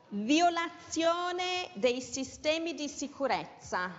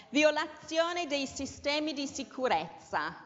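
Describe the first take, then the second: No difference in how they are said.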